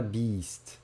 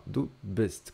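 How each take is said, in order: First: "bist" drawn out like English "beast", long ee; wrong long vowel. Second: "du bist" with a short clipped i, slowly and clearly. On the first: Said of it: "Parece que você tá falando beast do inglês". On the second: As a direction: keep "bist" short, almost "best". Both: Shown as a demonstration.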